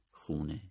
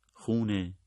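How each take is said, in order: First: "خونه،" repeated lower and much softer; fading repeat of "خونه،"; soft echo. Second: Said in the usual way. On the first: A narrator's reading. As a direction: let "خونه،" fade away like an echo.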